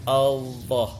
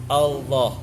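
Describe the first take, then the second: Both takes have the same delivery.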